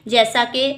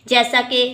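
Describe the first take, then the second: The two takes are said the same way.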